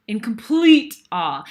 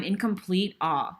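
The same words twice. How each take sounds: First: "complete" drawn out and louder; stress on complete. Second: Said in the usual way. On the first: Real, not acted. Speaker recalling watching the dance, "complete" stretched loud for emphasis. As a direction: lean hard and long on "complete".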